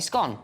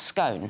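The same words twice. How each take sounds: First: The vowel does not rhyme with phone. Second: The vowel rhymes with the vowel of phone. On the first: "clearly the correct pronunciation" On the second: "should be pronounced to rhyme with phone"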